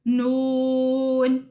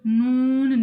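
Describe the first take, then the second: First: No sound goes through the nose. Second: The sound goes through the nose. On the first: The speaker calls it right. "नाक में आवाज नहीं जाने देनी।" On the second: The speaker calls it wrong. "नून नहीं कहना"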